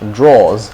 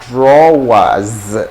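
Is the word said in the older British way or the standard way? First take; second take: older British; standard. First: It is said the older British way. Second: It is said the standard way. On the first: Older people say it like this for ladies' underwear. "I hear my my mom and some elderly people calling it drawers" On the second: This is the usual pronunciation of the word. "when you look at the the real word, it's usually drawers"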